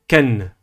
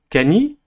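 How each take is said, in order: First: The n is followed by no vowel. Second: The n is followed by an i vowel. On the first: The speaker calls it right. "mais Ken ... Sans voyelle" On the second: The speaker calls it wrong. "ni Kani"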